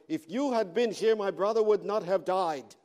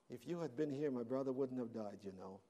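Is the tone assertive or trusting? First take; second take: assertive; trusting. First: It is said assertively, with urgency. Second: It is said gently, with trust.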